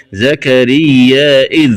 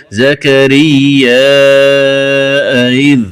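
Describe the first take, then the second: First: Said in the usual way. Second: زكريا drawn long with a hamza, إذ eased in; softened second hamza. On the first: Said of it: "قرأ زكريا بهمزة". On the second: Shown as a demonstration. Teacher showing the variant reading, زكريا held long, إذ softened. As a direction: recite زكريا slowly, add hamza, soften the hamza of إذ. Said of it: "فتسهل الهمزة الثانية".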